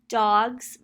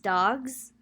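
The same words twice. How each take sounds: First: The word ends in an s sound. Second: The word ends in a z sound.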